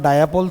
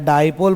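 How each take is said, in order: First: The word is said as three syllables, da-ya-pol. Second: The word is said as two syllables, dai-pol. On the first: The speaker calls it wrong. "डायापोल थोड़ी बोल रहा हूँ मैं" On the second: The speaker calls it right. "डाइपोल बोल रहा हूँ"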